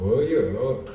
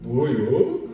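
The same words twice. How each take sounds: First: It is said in a shy, coy tone. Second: It is said in a surprised, pleased tone. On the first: "청춘 남자가 이렇게 제시해갖고 옆구리 코 부시면, 아" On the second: The speaker is pleasantly surprised by a big gift. "갑자기 뭐 선물 이만큼 안겨주는 거"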